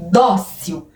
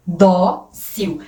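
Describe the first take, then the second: First: "Dócil" as one word, first syllable strong; stress on Dócil's first syllable. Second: "Dócil" split in two, strong "Dó", pause, then "cil"; syllable-by-syllable stress. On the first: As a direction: say "Dócil" leaning on the "Dó". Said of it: "qual que é a sílaba mais forte". ("Dócil" com a primeira sílaba mais forte) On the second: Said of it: "A penúltima sílaba, que é o dó, é a mais forte". ("Dócil" separado em sílabas, com pausa depois do "Dó" forte) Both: Shown as a demonstration.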